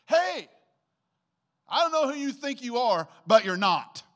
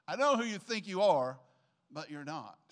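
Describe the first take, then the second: First: Shouted high and loud, putting someone in their place; loud scolding quote. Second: Said in the usual way. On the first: Retold or imitated. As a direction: call out a troublemaker sharply. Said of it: "And she said". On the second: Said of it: "That was her statement".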